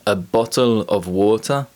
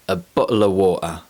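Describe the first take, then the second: First: The t sounds are clearly released. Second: The t sounds are glottal stops.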